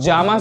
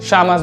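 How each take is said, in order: First: The first consonant sounds like English j. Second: The first consonant sounds like English sh. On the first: "इसको जामस भी बोल सकते हैं" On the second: "इसको शामस भी बोल सकते हैं"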